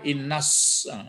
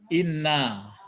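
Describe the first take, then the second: First: The word runs straight on into an s sound. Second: The word stops cleanly after the final vowel. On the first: The speaker calls it wrong. "jangan sampai innas" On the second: The speaker calls it right. "ya direm ya"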